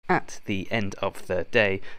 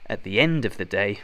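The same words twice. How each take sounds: First: Each word is said separately, without linking. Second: The words run together, with stress on end. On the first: The speaker calls it wrong. "Saying each word, at the end of the day, does not sound good, so don't do this" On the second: The speaker calls it right. "To sound natural, we need a linking sound and a soft sound... hit it on the E, the end"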